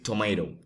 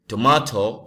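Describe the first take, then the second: First: The word is said with an American accent. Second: The word is said with a non-American accent.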